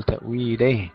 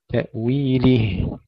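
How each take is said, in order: First: تأويله with the kasra of ل bent toward ay; wrong slack kasra. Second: Slow تأويله with a true i on the ل; full clear kasra. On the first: Tajweed teacher showing the error, slack vowel in تأويله. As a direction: say تأويله as ta'wileh, lax ending. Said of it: "ولا نقول". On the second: Tajweed teacher correcting the error, slow full kasra in تأويله. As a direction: finish تأويله slowly on a crisp lihi. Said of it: "تحقيق الكسر". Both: Shown as a demonstration.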